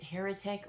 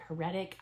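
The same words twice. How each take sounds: First: "heretic" stressed on the first syllable, HAIR-uh-tik; "heretic" with the punch up front. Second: "heretic" stressed on the middle syllable, huh-RET-ik; "heretic" with the punch on RET; second-syllable stress. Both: Shown as a demonstration. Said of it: "am I saying it right".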